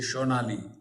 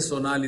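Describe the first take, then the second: First: The name begins with an sh sound. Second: The name begins with a plain s sound. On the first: "they say Shonali" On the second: "They don't say Sonali"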